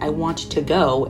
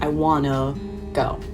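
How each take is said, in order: First: Want and to are said as two full words. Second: Want and to blend into one word with schwa. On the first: "when we hear something like" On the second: "it's gonna sound more like"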